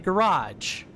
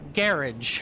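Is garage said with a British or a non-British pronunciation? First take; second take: non-British; British. First: It uses a non-British pronunciation of the word. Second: It uses the British pronunciation of the word.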